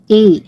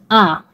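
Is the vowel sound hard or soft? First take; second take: soft; hard. First: The vowel sounds soft and light. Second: The vowel sounds hard and firm. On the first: "parang maarte na malambot" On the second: "Matigas yung pronunciation natin kay A"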